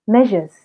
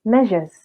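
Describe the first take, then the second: No difference in how they are said.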